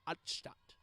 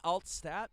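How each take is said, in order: First: The name is pronounced the German way. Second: The name is pronounced the English way. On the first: "I'm going to be saying it with a German accent" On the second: "might be Altstadt"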